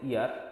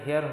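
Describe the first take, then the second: First: The word begins directly with a vowel. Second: The word begins with an h sound. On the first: The speaker calls it right. "এখানে হচ্ছে ইয়ার" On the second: The speaker calls it wrong. "এখানে হেয়ার হচ্ছে না"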